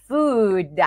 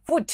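First: FOOD with a long, drawn-out oo and voiced d; careful teacher model of "food", long oo; food with long vowel. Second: "food" cut short to sound like "foot"; short-vowel slip turning "food" into foot; mispronounced as foot. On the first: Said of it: "ต้องระวังออกเสียงให้ดี". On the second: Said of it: "จะเป็นเท้านะคะ". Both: Shown as a demonstration.

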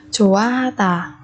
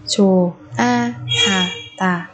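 First: Said in the usual way. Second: Slow Chùa a ha tà with gaps; syllable by syllable. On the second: Shown as a demonstration. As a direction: separate each syllable of Chùa a ha tà. Teacher splits word by syllable. (đọc chậm Chùa a ha tà từng âm tiết)

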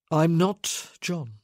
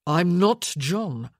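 First: Slow, measured man's denial; firm refusal. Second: Loud, slow, emphatic denial; louder insistence. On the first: Man telling the woman who he isn't, slow and firm. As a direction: state it slowly, each word set apart. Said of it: "he said again, louder". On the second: Man insisting to a woman who may not hear, louder. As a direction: press each word hard and loud. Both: A narrator's reading.

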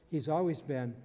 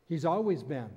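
The two takes are said the same way.

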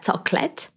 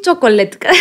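First: Chocolate in a careful English accent; English-accented chocolate, measured and careful; proper English accent. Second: Chocolate in a heavy Greek accent; laughing Greek-accented chocolate, raised voice; Greek-accented English. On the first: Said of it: "με προφορά όμως". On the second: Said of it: "σε κοροϊδεύουνε και εν τέλει να καταλήξεις". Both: Shown as a demonstration.

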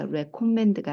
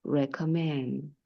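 First: "recommend" with the final d fully sounded; consonant kept. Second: "recommend" ending on n, the d left off; dropped consonant. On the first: Teacher showing learners what to avoid, "recommend" with a sounded d. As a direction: say "recommend" with a released d at the end. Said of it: "앞에 거 하나 탈락시키십니다". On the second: Teacher modelling the natural form for learners, "recommend" without its d. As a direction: say "recommend" as "recommen", stress at the end. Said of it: "자음이 두 개 있을 때 앞에 거 하나 탈락시키십니다". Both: Shown as a demonstration.

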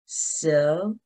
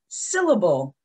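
First: "Syllable" in three separate beats; split into syllables. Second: Said in the usual way. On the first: Shown as a demonstration. Teacher shows children the parts, "Syllable" split beat by beat. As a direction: break "Syllable" into syl, la, ble with pauses. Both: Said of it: "break it down into the smaller sounds".

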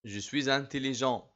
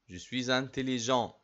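No difference in how they are said.

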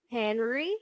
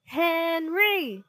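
First: HENRY with a rising, unsure question tune. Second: High, drawn-out loud chant of the name; chanted, call it out like a crowd of fans. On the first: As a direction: answer "Henry?" as a tentative guess. Caught daydreamer answers teacher uncertainly. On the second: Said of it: "cheering and chanting". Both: A narrator's reading.

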